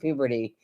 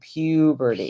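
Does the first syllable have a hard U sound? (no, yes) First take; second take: no; yes. First: The first syllable lacks the hard U sound. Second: The first syllable has a hard U sound. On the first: The speaker calls it wrong. "if you've been saying puberty" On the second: The speaker calls it right. "it's a U"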